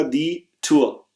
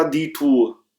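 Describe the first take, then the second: First: "टूर" with a flatter umlaut ü, said slowly; "दी टूर" with a German ü, not a plain u; umlaut ü sound. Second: "टूर" with a straight, plain u as in "tour"; plain u without umlaut. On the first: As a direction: round the lips for the ü in "टूर". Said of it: "आवाज यहां पर थोड़ी सी flat होगी". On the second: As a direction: read "टूर" as a normal u, no umlaut. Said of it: "अगर umlaut ना होती तो मैं इसको कहता". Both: Shown as a demonstration.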